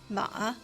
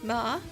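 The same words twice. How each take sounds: First: The pitch dips low, then rises. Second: The pitch rises from middle to high. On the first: It means horse. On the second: It means numb.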